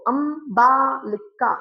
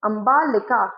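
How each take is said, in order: First: "अंबालिका" split into अं, बा, लि, का; slow, separated beats on "अंबालिका"; syllable by syllable. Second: Said in the usual way. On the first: Shown as a demonstration. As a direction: sound out each syllable of "अंबालिका". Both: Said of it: "चार syllable वाले sound हो गए".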